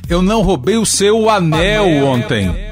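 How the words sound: The stress falls on the word anel. Something else may have been stolen. "Posso ainda enfatizar o suposto elemento roubado"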